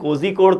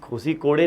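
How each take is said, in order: First: The name ends on the consonant, no vowel. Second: The name ends with an added final vowel. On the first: The speaker calls it right. "कम से कम कोजी कोड तो बोल लो" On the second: The speaker calls it wrong. "भाई कोजी कोड़े नहीं है"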